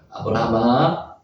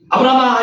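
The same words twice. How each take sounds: First: The name is called out in a quiet, gentle voice. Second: The name is called out in a stern, commanding voice.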